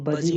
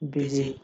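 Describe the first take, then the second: First: The first vowel sounds like 'uh'. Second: The first vowel sounds like 'ih'. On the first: The speaker calls it wrong. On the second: The speaker calls it right.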